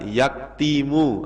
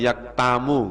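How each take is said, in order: First: The vowel after the t is i. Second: The vowel after the t is a. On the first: "Tidak boleh dibaca" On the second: "nggak boleh"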